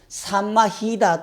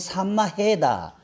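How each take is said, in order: First: The third syllable is said with an 'i' vowel. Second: The third syllable is said with an 'ae' vowel. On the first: "산마히다라고 발음하는 사람도 있고" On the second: "해라고 발음하는 자리도 있어"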